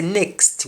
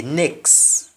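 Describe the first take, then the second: First: "next" with the final T clearly sounded; English NEXT with T. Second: "next" said as NEKS, final T dropped; Jamaican NEXT without T. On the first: Teacher shows learners the English way, "next" with its T pronounced. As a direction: finish "next" on a full T, NEKST. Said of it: "we pronounce the T". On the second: Teacher shows learners the Jamaican way, "next" said NEKS without T. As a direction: drop the T and end "next" on the S. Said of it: "but in Jamaican, we simply say". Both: Shown as a demonstration.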